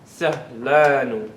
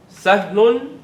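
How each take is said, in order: First: Slow "Sahlanu" with a long "laa"; added -anu ending. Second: Said in the usual way. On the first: Shown as a demonstration. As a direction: stretch "Sahlanu" out, lower and falling. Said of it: "That anu added to any adjective". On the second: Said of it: "Everybody, sahlun".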